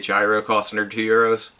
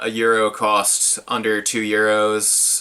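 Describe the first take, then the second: First: The food word starts with a 'j' sound. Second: The food word sounds just like 'euro'. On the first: "I'd rather just say a gyro" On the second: "the proper way to say that is euro"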